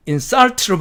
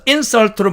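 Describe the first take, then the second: First: Insult로의 뒤 SULT에 강세; insult로를 in-SULT로 뒤를 세게; stress on SULT. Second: Insult로의 앞 IN에 강세; insult로를 IN-sult로 앞을 세게; stress on IN. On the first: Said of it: "뒤쪽에 액센트를 줘서". (뒤 강세 insult) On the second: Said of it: "앞쪽에 액센트를 줘서". (앞 강세 insult) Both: Shown as a demonstration.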